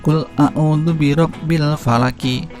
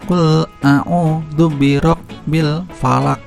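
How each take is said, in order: First: The last word ends with a full vowel. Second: The last word ends on a bounced q sound. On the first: It is read as written, without stopping. "Tulisannya Al-Falaki" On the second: The reader stops at the end of the verse. "kalau diwakafkan ketika kita berhenti"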